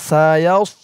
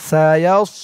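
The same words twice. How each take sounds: No difference in how they are said.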